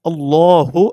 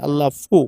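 First: The last syllable is pronounced with an h sound. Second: The last syllable is pronounced with an f sound. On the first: The speaker calls it right. "হা পেশ হু ... এটা হচ্ছে সঠিক উচ্চারণ।" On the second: The speaker calls it wrong. "এই যে ফু বলে, ফা উচ্চারণ করে ... এটা হচ্ছে সম্পূর্ণ ভুল।"

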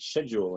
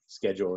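First: It is said in a Southern English accent. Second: It is said in an American accent. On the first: "people who speak with a Southland English accent say things like" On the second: "why people in America and Yorkshire say"

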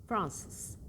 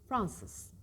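No difference in how they are said.

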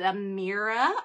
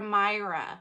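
First: The middle vowel sounds like the vowel in mirror. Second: The middle vowel sounds like the word eye. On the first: "a little eye" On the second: "a big eye"

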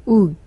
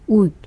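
The two takes are said the same way.

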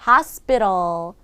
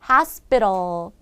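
No difference in how they are said.

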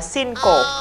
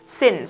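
First: The word ends with an added final vowel syllable. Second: The word ends cleanly in an s sound. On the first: The speaker calls it wrong. "Thầy đã dạy mình sai" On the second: The speaker calls it right. "CE mà đứng cuối từ... dấu hiệu của âm S ending sound"

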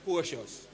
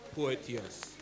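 First: The middle sounds like sh, with no t. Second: The middle has a clear t sound. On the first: The speaker calls it wrong. "it is not Porcious" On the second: The speaker calls it right. "it is Porteous"

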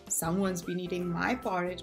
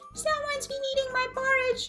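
First: It is said in a medium bear growl. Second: It is said in a tiny, high bear growl.

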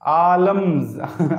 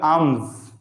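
First: The L sound is pronounced in the word. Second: The L sound is silent in the word. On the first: The speaker calls it wrong. "आलम नहीं है ये" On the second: The speaker calls it right. "एल silent रहेगा"

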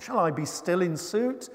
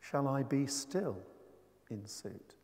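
First: The question is said in an angry tone. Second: The question is said in a calm tone. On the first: The speaker impatiently asks whether to keep on asking. "you can say that angrily, as I did earlier on" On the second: The speaker asks whether to ask while staying motionless. "Not moving. Stillness going on there"

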